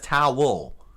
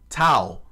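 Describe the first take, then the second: First: The word is said with two syllables, like towel. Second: The word is said as one short syllable.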